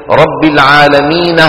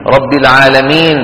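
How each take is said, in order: First: العالمين said with a short fatha and a breathy h on the end; with added h. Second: Said in the usual way. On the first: Shown as a demonstration. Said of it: "أرادوا أن يبينوا فتحة النون". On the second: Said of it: "إذا بدهم يوقفوا عليها شو بيقولوا".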